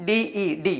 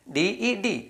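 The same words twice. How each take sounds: The two takes are said the same way.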